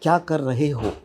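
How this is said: The phrase is said in a stiff, overly careful way. "Fardeen will say kya kar rahe ho. He will talk like that"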